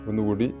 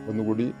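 Both takes have the same delivery.

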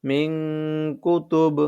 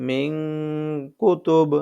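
The two takes are said the same way.

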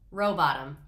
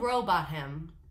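First: The H sound in the name is silent. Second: The H sound in the name is pronounced. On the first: The speaker calls it right. "That makes so much more sense" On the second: The speaker calls it wrong. "I shouldn't have been pronouncing the H"

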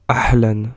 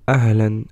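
First: The word starts with a harsher, different h. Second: The word starts with a light breathy h. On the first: The speaker calls it wrong. "et non pas ahlan" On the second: The speaker calls it right. "la lettre ha qu'on retrouve dans le mot ahlan"

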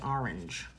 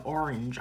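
First: It is said in a Boston accent. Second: It is said in a general American accent. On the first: "I say orange" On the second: "instead of saying orange"

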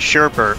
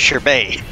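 First: The second syllable has an added R sound. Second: The second syllable has no R sound. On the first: This is the common everyday way people say it. The speaker calls it wrong. "I call it Sherbet" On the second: This is how the word is actually pronounced. The speaker calls it right. "but I know it's Sherbet"

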